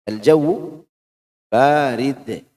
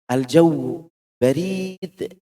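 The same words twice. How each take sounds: First: The first vowel of barid is long. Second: The first vowel of barid is short. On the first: The air is cold. The speaker calls it right. "Banyak yang panjang" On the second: It literally means the post office. The speaker calls it wrong. "salah-salah diucap"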